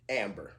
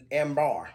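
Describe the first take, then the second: First: Said in the usual way. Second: "amber" said as am-BAR; unfamiliar pronunciation. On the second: Real, not acted. Reading out an unfamiliar note to viewers, "amber" as am-BAR. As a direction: say "amber" with a full open "-bar" ending. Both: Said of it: "I've never heard of that before".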